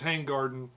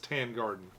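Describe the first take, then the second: First: The first part ends with a g sound. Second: The first part ends without a g sound. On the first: The speaker calls it wrong. "I've been calling it Tang Garden" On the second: The speaker calls it right. "the G is silent and it's Tan Garden"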